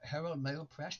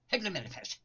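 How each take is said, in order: First: Each newspaper name is said clearly and separately. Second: The names are slurred together into one quick cry. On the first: The speaker calls it wrong. "no, you don't say that" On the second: The speaker calls it right. "That's what you're supposed to say"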